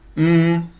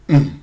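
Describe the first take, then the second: First: The hum is held on a mid pitch. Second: The hum is held on a low pitch. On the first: "c'est le ton moyen ... se mime mm" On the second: "c'est le ton bas ... se mime hum"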